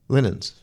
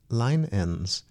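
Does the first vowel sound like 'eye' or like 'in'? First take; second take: in; eye. First: The first vowel is a short i, as in 'in'. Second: The first vowel is a long i, as in 'eye'. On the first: The speaker calls it wrong. "Linens is wrong" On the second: The speaker calls it right. "should be pronounced line-ens"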